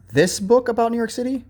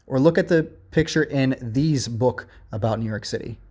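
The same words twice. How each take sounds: First: "this book" lifted high to mark the right choice; correct version, pitched high. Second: Said in the usual way. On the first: Shown as a demonstration. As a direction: sing up "this book" as the correct one. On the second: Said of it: "It should be this".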